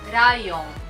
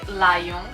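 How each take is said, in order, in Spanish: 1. La palabra empieza con un sonido parecido a R. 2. La palabra empieza con un sonido L claro. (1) "con la pronunciación japonesa" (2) "no es eh, lion"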